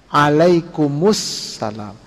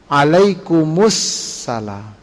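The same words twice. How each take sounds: First: The whole reply is said, linked with -us-. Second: The whole reply is said, linked with -us-.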